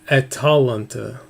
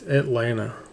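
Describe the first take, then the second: First: It is said with four syllables. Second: It is said with three syllables. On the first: The speaker calls it right. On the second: The speaker calls it wrong.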